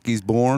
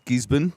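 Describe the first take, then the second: First: The final syllable is a full 'born' sound. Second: The final syllable is reduced and unstressed. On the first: The speaker calls it wrong. "not Gisborne" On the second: The speaker calls it right. "it's Gisborne"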